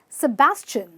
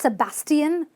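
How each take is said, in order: First: The ending is said with a 'chin' sound. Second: The ending is not said with a 'chin' sound. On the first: The speaker calls it right. "you simply pronounce it at the end as a chin" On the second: The speaker calls it wrong. "not Sebastian"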